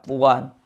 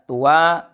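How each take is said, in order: First: The word ends with an added n sound. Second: The word ends on a vowel, without n. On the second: "tidak ditanwinkan"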